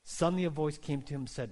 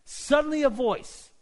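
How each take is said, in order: First: Said in the usual way. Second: High, loud dramatic burst; sudden outburst. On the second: A narrator's reading. Sudden voice breaks into the story.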